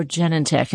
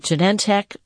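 First: Genentech as JEN-en-tek; stress on first syllable. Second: Genentech as juh-NEN-tek; stress on second syllable. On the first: Host retelling the alternative offered, Genentech said JEN-en-tek. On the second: Host retelling a TV question, Genentech said juh-NEN-tek. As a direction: lean on the middle syllable of Genentech. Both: Retold or imitated. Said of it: "person asked him right away".

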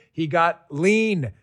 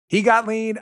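First: Slow, with "lean" drawn out and falling; stress on lean. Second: "got" punched higher and louder; stress on got. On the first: Ad host teasing the product name, slow stress on lean. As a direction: let "lean" hang, slowly. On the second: Ad host repeating the line for punch, stress on got. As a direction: hit "got" hard, then land on "lean". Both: Shown as a demonstration.

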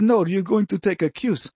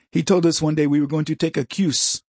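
First: Put-on Indian accent. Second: Said in the usual way. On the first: Lab instructor announcing a quiz, mock Indian accent. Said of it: "He says".

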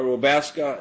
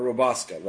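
First: "Wabasca" said as roh-BASS-kah; guessed pronunciation. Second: "Wabasca" said as roh-BAHS-kah; alternative pronunciation. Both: Shown as a demonstration. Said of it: "Is that how you say it?".

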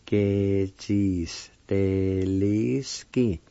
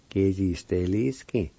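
First: "Ke Jis Te Li Ski" very slowly, syllables stretched; slow careful pronunciation. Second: Said in the usual way. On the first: Shown as a demonstration. Teacher blending the syllables for learners, "Ke Jis Te Li Ski" slow and drawn out. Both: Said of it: "it's pronounced like this".

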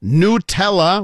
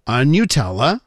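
First: Nutella drawn out as "noo-TELL-uh", slow and rising; slow, careful "noo" Nutella; noo-tella version, slow. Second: Nutella as "nyoo-TELL-uh", rising; one way to say Nutella; new-tella version. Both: Shown as a demonstration. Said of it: "whatever you want".

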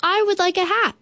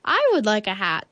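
First: High, eager bear voice; bear's reply. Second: Said in the usual way. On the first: A narrator's reading. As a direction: answer high and keen as Bear. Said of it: "Then he replied". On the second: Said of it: "said the moon".

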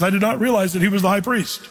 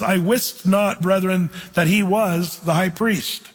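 First: Quick, everyday reading of "I did not realize"; modern ESV wording. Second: Slow, weighty reading of "I wist not, brethren"; old King James wording. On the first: Preacher reads the ESV line quickly to compare. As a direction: toss off the modern version quickly. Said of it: "the E S V says". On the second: Preacher reads the King James line slowly to the class. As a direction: lean on the old words, slowly. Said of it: "notice he says". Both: Shown as a demonstration.

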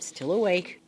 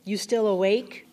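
First: Said in the usual way. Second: "still awake" lifted into a question; asking. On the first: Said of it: "and he said". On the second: A narrator's reading. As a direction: ask it, rising on "awake". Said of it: "I asked after a while".

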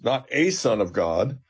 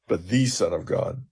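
First: "a" stressed with a rising lift, set apart as "ay". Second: "the" stressed as "thee" with a falling close. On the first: Professor correcting a reading of the confession, stressing "a". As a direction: hit "a" in "not a son of God," to mark the wrong reading. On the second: Professor giving Peter's true confession, stressing "the". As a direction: land firmly on "the" in "the Son of God,". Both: Shown as a demonstration. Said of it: "his confession is perfect because he says".

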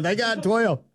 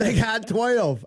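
First: High frantic repeated cry; excited yelling. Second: High, slow frantic cry; excited yelling. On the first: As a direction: yell it again like a frantic coach. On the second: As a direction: plead it like a frantic coach. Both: Retold or imitated. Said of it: "I'm going".

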